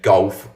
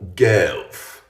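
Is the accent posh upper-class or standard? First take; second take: standard; posh. First: It is said in a standard neutral accent. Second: It is said in a very posh accent. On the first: "Words such as often and golf" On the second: "would become things like often or gelf"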